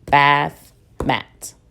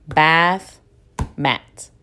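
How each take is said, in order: First: Said in the usual way. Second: Bath, pause, mat, each syllable apart; "Bath" and "mat" said as two separate pushes of breath; split into syllables. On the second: Shown as a demonstration. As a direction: clap out the two beats: "Bath" then "mat". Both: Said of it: "I have two pushes of breath".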